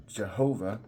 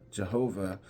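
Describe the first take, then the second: No difference in how they are said.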